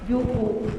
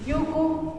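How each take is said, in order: First: The word carries the usual, stronger accent. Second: The word carries a reversed, very faint accent. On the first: It means grass. "yuku es hierba" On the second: It means hill or mountain. "al revés, no el normal, porque es una acentuación como muy tenue"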